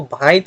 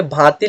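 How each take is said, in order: First: भांइत with i moved before the t; Nagpuri apinihiti. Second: Said in the usual way. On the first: Shown as a demonstration. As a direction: say भांइत, nasal vowel gliding into i, ending on t. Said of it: "लेकिन इसको भांइत पढ़ेंगे". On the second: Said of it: "भांति लिखा हुआ है".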